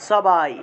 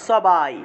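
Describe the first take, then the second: First: The first consonant is an s sound. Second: The first consonant is an s sound.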